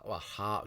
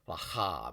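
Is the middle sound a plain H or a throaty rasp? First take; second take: plain H; throaty rasp. First: The middle sound is a plain, soft H. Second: The middle sound is a rasp from the throat. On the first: "transliteration is different" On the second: "To pronounce it correctly would be rahab, rahab from here"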